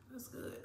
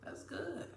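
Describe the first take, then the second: First: Whispered under the breath, unvoiced; hushed whisper of approval. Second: Said in the usual way. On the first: Real, not acted. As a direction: breathe the words, no voice at all. Repeating her approval of the drink.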